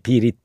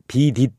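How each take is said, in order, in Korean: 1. 가운데 자음은 가벼운 r 소리가 나요. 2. 가운데 자음은 센 d 소리가 나요. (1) "릿으로 얘기해야지" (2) "비딧 이렇게 발음을 하면 안 되고요"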